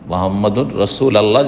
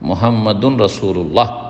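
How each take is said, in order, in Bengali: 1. 'Allah' আলাদা একটি শব্দ হিসেবে বলা হয়। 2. 'Allah' আগের শব্দের সাথে জুড়ে বলা হয়। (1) "এটা ভুল উচ্চারণ" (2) "যদি শুদ্ধ পড়তে চান"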